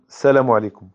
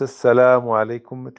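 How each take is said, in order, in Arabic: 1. يُقطع صوت اللام ويُدمج فيما بعده. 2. يُمدّ صوت اللام مدًا طويلًا. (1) "يعني يجمعون السلام" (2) "مثل المشارقة يطولون هذا في مد باللام"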